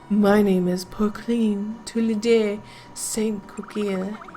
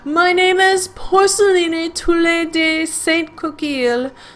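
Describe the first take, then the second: First: It is said in a seductive, sultry voice. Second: It is said in his usual character voice.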